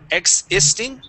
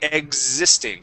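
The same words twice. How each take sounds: First: The middle consonants sound like 'ks'. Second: The middle consonants sound like 'gz'. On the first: The speaker calls it wrong. "instead of saying X" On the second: The speaker calls it right. "that X is going to sound more like a Z sound"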